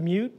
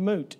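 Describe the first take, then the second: First: The vowel is preceded by a y glide. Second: The vowel has no y glide before it. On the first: "mew with a u" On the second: "moo with an oo"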